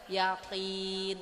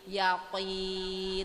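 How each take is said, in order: First: The q sound is thin and light. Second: The q sound is thick and heavy. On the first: The speaker calls it wrong. "bukan berarti kita baca yakin" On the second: The speaker calls it right. "tapi yakin, karena hurufnya itu memang tebal"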